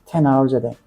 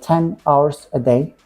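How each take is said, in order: First: The words run together in one smooth flow. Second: Each word is said separately with small breaks. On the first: The speaker calls it right. "We should say ten hours a day" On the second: The speaker calls it wrong. "We shouldn't say ten hours a day. That's wrong"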